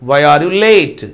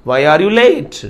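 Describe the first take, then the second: Both takes have the same delivery.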